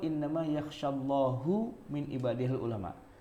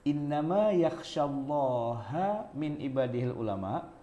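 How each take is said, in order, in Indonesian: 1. Allah diakhiri dengan vokal u. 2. Allah diakhiri dengan vokal a. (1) "dibaca hu" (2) "dibaca ha"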